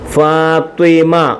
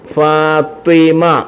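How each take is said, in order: The two takes are said the same way.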